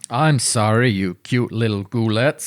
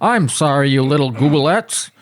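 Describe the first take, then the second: First: A mysterious-sounding put-on character voice. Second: A comically cartoonish put-on character voice. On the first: The speaker calls it wrong. "You're not doing the Gibby voice" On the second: The speaker calls it right. "it's Nixon meets Zoidberg"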